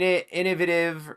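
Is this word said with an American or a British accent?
British. It is said with a British pronunciation.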